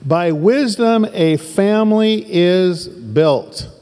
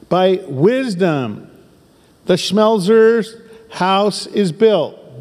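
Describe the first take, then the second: First: Slow, emphatic reading with wisdom stretched; reading the verse slowly. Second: Wisdom drawn out, Schmelzer's leaned on; slow emphatic verse reading. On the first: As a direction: pastor rereads the changed verse slowly to the congregation, stressing wisdom. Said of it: "let's reread this and let's make the slight change". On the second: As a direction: pastor inserts the family name into the verse, slow and stressed. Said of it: "let's make the slight change". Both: Shown as a demonstration.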